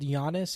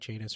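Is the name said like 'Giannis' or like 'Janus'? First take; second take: Giannis; Janus. First: The name is said like 'Giannis'. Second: The name is said like 'Janus'. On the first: The speaker calls it wrong. "I probably pronounced it wrong" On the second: The speaker calls it right. "It's probably like Janus"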